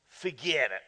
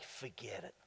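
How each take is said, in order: First: It is said in a put-on New York accent. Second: It is said in the speaker's plain accent.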